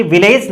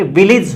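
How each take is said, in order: First: "विलेज" with a long e, vi-layj; wrong vowel. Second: "विलेज" as vil-ij, short i twice; correct short vowel. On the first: Teacher showing the common error, "विलेज" with long e ending. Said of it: "विलेज नहीं होता". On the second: Teacher correcting students, "विलेज" pronounced vil-ij. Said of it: "ये विलेज होता है". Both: Shown as a demonstration.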